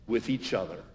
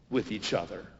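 No difference in how they are said.

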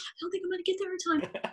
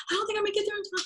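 First: High, fast, softer panicked repeat; high quick fretful mutter. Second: Very high panicked wail; high frantic worry. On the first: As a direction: rush it again, high and trailing off in dread. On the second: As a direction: plead it, voice pitched way up in alarm. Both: Retold or imitated. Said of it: "I go".

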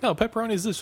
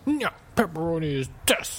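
First: High-pitched, quick retold correction; group correcting someone. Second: Stubborn guy. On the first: Four people on the boat correcting one guy, high retold objection. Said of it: "Four of them are like". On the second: Retold or imitated. Stubborn guy on the boat refusing to give in, mock insistence. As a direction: dig in stubbornly and land hard on "this". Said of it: "just some stubborn guy".

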